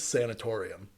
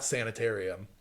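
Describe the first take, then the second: First: The stressed syllable has an 'or' sound. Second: The stressed syllable has an 'ar' sound. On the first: The speaker calls it right. "There's an O, not an A" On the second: The speaker calls it wrong. "It's not sanitarium"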